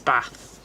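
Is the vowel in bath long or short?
short. The vowel in bath is short.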